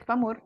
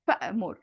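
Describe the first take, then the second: First: There is no glottal stop before the m. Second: A glottal stop is heard before the m. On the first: The speaker calls it wrong. "I don't say famur" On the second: The speaker calls it right. "the hamza kind of sneaks in back"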